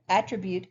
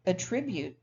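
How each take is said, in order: First: Attribute stressed on AT; first-syllable stress. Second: Attribute stressed on TRIB; second-syllable stress. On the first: Teacher showing students the noun, attribute stressed on first syllable. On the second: Teacher contrasting number nine, attribute stressed on second syllable. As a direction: say attribute as the verb, at-TRIB-ute. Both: Shown as a demonstration. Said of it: "but with a different stress pattern".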